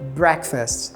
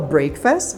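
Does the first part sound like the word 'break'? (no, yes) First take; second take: no; yes. First: The first part sounds unlike the word 'break'. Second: The first part sounds like the word 'break'. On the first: The speaker calls it right. "mas sim breakfast" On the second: The speaker calls it wrong. "não se fala breakfast"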